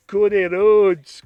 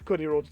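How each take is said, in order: First: Loud, slow, put-on CODY RHODES; wrong-sounding voice. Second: Said in the usual way. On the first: Naming the pairing, slow put-on wrong voice. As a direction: stretch out Cody Rhodes in a mock accent. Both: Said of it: "doesn't sound like that".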